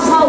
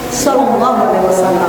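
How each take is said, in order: First: The abbreviation is said as one short syllable. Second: The blessing is said in full, several words. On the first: The speaker calls it wrong. "Dibacanya begini, Nabi Muhammad saw katanya" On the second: The speaker calls it right. "S A W itu kan tak saw, nah Sallallahu Alaihi Wasallam"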